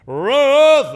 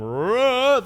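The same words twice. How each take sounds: First: Much louder, higher hollered name; bellow. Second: A loud, high hollered name; bellow homage. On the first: Father bellows for his wife instead of using the intercom, loud bellow. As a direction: mimic dad bellowing through the house. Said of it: "when you can just bellow". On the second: Family repeats dad's bellow at home as homage, loud call. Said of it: "we actually do that at our house". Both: Retold or imitated.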